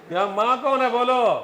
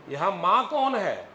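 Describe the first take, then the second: First: कौन pushed higher and louder, whole line raised; louder prompt. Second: Said in the usual way. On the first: Shown as a demonstration. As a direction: call the class out loudly on कौन.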